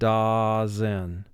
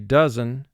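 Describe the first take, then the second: First: The first vowel sounds exaggerated like "da". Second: The first vowel sounds relaxed and natural. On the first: This form helps with spelling the word. "for spelling... we say the word da-zen" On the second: This is how the word is said in speech. "for speaking, we say dozen"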